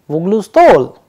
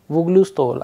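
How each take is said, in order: First: The voice rises at the end. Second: The voice falls at the end. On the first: It asks a question. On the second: It states a fact.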